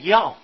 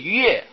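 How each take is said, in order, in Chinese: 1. 这个字读作 yào。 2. 这个字读作 yuè。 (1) "就表示这个字要读气声，读要" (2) "也不是悦"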